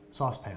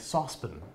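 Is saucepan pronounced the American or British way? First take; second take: American; British. First: The word is said with an American pronunciation. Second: The word is said with a British pronunciation.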